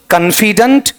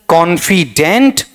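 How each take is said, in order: First: कॉन्फिडेंट as "kun-fi-dunt", high and rising; कॉन्फिडेंट with weak "kun" and "dunt"; second variant. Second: कॉन्फिडेंट slowly as "kon-fi-dent", rising; कॉन्फिडेंट with open "kon" and clear "dent"; third variant. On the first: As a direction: reduce first and last vowels of कॉन्फिडेंट to schwa. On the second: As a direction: give कॉन्फिडेंट full vowels, ending in "dent". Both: Shown as a demonstration. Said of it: "चारों पढ़ दो तो".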